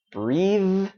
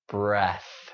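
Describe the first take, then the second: First: "breathe" higher, long EE and buzzing TH; voiced ending. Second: "breath" short, falling, with a voiceless TH; air-only ending. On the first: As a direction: keep the voice going through "breathe". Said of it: "Keep that voice going". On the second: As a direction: end "breath" on nothing but air. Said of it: "only air". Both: Shown as a demonstration.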